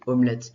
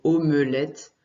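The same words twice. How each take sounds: First: It is said in a casual everyday pronunciation. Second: It is said in a careful reading pronunciation. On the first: This is how people usually say it. "quand on le dit, souvent on dit omelette" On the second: This is how it sounds when read. "si tu le lis, ça se prononce plutôt omelette"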